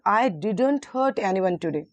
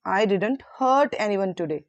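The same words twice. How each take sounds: First: The stress is on the word didn't. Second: The stress is on the word hurt.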